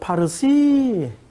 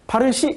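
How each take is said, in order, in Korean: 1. 페르시아식 선율 억양으로 말해요. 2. 평범하고 특별한 억양 없이 말해요. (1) "악센트가 그래요" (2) "이렇게 안 하고"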